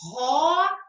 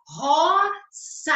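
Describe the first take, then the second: First: The middle consonant is a buzzing z sound. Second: The middle consonant is a hissing s sound. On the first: The speaker calls it right. "nós pronunciamos roça" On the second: The speaker calls it wrong. "A gente não fala roça"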